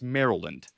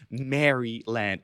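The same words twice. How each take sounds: First: The first part is short and reduced. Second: The first part sounds like the name Mary. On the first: The speaker calls it right. "it's Maryland" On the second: The speaker calls it wrong. "it's not Maryland"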